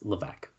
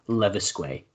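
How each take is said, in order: First: The surname is said in its standard pronunciation. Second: The surname is said in a jokey mispronunciation. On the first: The speaker calls it right. "It's Levesque. I know that" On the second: The speaker calls it wrong. "I said it stupid because I know a friend who used to say that"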